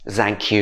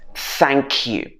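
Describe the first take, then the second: First: The first word starts without a 'th' sound. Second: The first word starts with a 'th' sound. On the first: The speaker calls it wrong. "A lot of people say thank you" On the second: The speaker calls it right. "It should be th"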